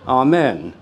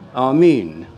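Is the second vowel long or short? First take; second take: short; long. First: The second vowel is a short e. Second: The second vowel is a long e. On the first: This is the common Western form. "the most basic mantra in the Western traditions" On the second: This is the original form. "in its original pronunciation"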